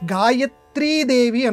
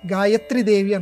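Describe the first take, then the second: First: The vowel of 'tri' is held long. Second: The vowel of 'tri' is kept short. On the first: The speaker calls it right. "ఏది నిజం అనంటే గాయత్రీ దేవి అనాలి. ... తీకి దీర్ఘం పెట్టాలి" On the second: The speaker calls it wrong. "గాయత్రి దేవి అనకూడదు"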